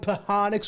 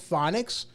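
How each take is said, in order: First: The P and H are sounded separately. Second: It is said with its normal pronunciation. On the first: "it would be hook it on Pahonics" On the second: "you can't use phonics to pronounce phonics"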